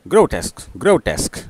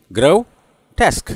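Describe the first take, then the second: First: grotesque quickly, grow-tesk run together; quick demonstration of grotesque; said speedily. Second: grotesque slowly split into grow and tesk; slow teaching grotesque in two beats; two syllables. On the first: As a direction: repeat grotesque briskly as one joined word. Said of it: "और speedily सुनेंगे". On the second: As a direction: draw out grotesque with a gap before tesk. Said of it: "फिर भी दो syllable है". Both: Shown as a demonstration.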